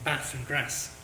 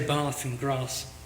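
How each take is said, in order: First: It is said in the local northern accent. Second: It is said in the speaker's non-local accent.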